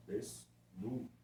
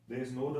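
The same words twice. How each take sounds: First: Desnudo drawn out softly with a rise; teacher slowly repeating Desnudo; slow sounding out. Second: Said in the usual way. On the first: Shown as a demonstration. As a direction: stretch Desnudo gently to show the middle cluster. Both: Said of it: "encontro consonantal na segunda sílaba".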